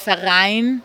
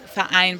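First: Ver and ein run together without a stop. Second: A short glottal stop splits ver and ein. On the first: "weil ich sage nicht Verein" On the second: "so ein kurzes Stopp"

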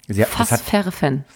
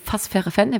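First: The phrase is spoken slowly, with pauses. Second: The phrase is spoken quickly, without pauses. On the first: The speaker calls it right. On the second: The speaker calls it wrong.

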